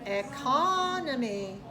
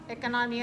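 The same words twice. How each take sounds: First: The stressed vowel is clearly lengthened. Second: The stressed vowel is not lengthened.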